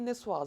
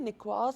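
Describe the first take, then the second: First: The middle consonant is a soft s sound. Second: The middle consonant is a hard k sound. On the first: The speaker calls it right. "it should be niçoise" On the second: The speaker calls it wrong. "it shouldn't be niçoise"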